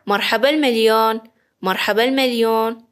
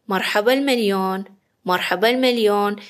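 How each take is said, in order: Both takes have the same delivery.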